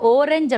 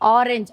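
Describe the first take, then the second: First: The first vowel sounds like oh. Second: The first vowel sounds like ah. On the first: The speaker calls it wrong. "ஓரஞ்சு அப்படின்னு சொல்ல மாட்டோம்" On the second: The speaker calls it right. "ஆரஞ்சு அப்படிங்கறதான் சொல்லுவோம்"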